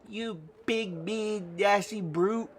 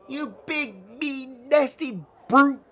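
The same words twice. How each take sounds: First: The word brute gets little extra stress. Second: The word brute gets strong extra stress.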